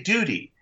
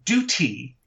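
First: Duty has a soft d sound, like doody. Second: Duty has a crisp t sound, British style. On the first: The speaker calls it right. "You've got to say duty" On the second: The speaker calls it wrong. "You can't say duty"

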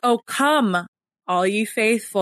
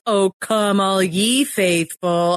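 First: The word 'ye' is left unstressed. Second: The word 'ye' carries the main stress. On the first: The speaker calls it right. "that's not how it's like" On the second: The speaker calls it wrong. "why are you saying ye as like the one that's like accented?"

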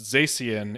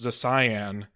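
First: The ending does not sound like 'cyan'. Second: The ending sounds like the word 'cyan'. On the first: The speaker calls it wrong. "it should not be pronounced Zacian" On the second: The speaker calls it right. "It should be pronounced Zacian, because it would be cyan and magenta"

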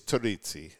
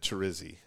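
First: The double z sounds like ts in pizza. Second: The double z is a plain z sound. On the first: This is how the name is said in Italy. "In Italy, it's Terrizzi, you know, like pizza" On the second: This is how the name was said at home. "growing up, it's always been Terrizzi"

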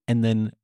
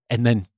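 Both takes have the same delivery.

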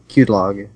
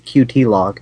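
First: Qt is spoken as one word, cute. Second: Qt is spoken as two separate letters. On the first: "as opposed to a word" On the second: "I've always seen it as two letters"

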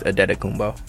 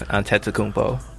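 First: The second syllable begins with a D sound. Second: The second syllable begins with a T sound. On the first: This is the Nigerian form of the name. "the Nigerian is" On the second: This is the Greek form of the name. "The Greek is"

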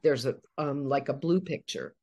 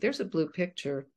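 First: It is said hesitantly with fillers and pauses. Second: It is said smoothly without any pauses.

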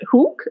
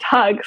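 First: The name is said with a German vowel sound. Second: The name is said with an English vowel sound. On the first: This is how the family says the name. The speaker calls it right. "they pronounce it Hook" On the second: This is how others misread the name. The speaker calls it wrong. "So it's not pronounced Hug"

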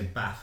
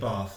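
First: It is said in a Northern English accent. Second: It is said in the speaker's Southern English accent.

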